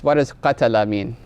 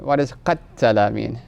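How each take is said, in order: First: Qatala with a short, single t; "qatala" in its simple short form; plain single consonant. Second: Qatala with a held, doubled t, as qat-tala; emphatic doubled consonant. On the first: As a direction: say "qatala" lightly, without doubling the t. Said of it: "leaving off some more emphasis". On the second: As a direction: lengthen the t in "qatala". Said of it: "because it has extra letters". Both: Shown as a demonstration.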